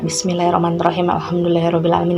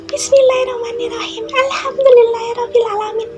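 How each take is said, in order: First: It is recited in a frightened tone. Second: It is recited in a mocking female voice.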